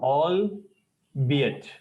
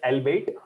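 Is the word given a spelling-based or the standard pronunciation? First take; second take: standard; spelling-based. First: The word gets its standard pronunciation. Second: The word is pronounced the way it looks. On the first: The speaker calls it right. "The pronunciation is albeit" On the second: The speaker calls it wrong. "हमें जो दिखता है हम वैसे pronounce करते हैं. So actually we say it as albeit. Wrong है"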